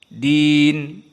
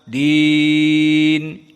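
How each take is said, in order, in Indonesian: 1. Vokal ditahan dalam waktu yang pendek. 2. Vokal ditahan dalam waktu yang sedang. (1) "Pertama al-qasr. Din dua harokat saja" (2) "dengan tawassut. Empat atau lima"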